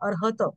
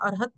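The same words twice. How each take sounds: First: The final t is fully sounded with a vowel. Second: The final t is cut short with no vowel. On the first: The speaker calls it right. "तचा उच्चार पूर्ण करा" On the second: The speaker calls it wrong. "कमी केला तर तचा पाय मोडल्यासारखं होणार ना. अर्हत नाही"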